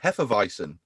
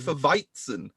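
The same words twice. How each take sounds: First: The middle sound of 'weizen' is a soft z. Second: The middle sound of 'weizen' is a sharp ts. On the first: The speaker calls it wrong. "And I went" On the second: The speaker calls it right. "it's actually got a T in it"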